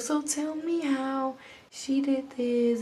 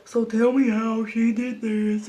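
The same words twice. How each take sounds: First: Slow, softened motherly question; gentle mama. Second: Slow question, lightly voiced as a mother; the other mom. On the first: Retold or imitated. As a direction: imitate a gentle mother, taking it slowly. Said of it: "She's, like, so gentle". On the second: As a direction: imitate the other mom, slowly and firmly. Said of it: "And her mom was like".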